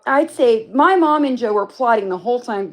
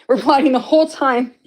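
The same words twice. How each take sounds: First: Said in the usual way. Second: Said through a laugh, a bit louder; laughing as she owns up to it; giggly confession. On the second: Real, not acted. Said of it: "Yes, you were".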